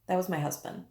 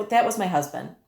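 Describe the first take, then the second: First: That was my husband said much softer; softer repeat. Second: Said in the usual way. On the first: Real, not acted. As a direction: drop the repeat right down, falling. Softer repeat of closing line.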